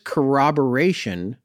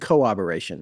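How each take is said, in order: First: The middle R sounds are clearly pronounced. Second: The middle R sounds are left out. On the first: The speaker calls it right. "Did I say it right?" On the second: The speaker calls it wrong. "I was leaving out the middle R's"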